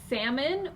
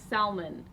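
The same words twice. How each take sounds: First: The L sound is silent. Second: The L sound is pronounced. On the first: "do you say salmon" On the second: "do you pronounce the L salmon"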